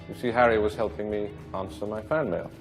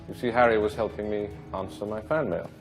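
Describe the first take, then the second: Both takes have the same delivery.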